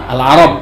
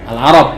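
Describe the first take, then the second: Both takes have the same delivery.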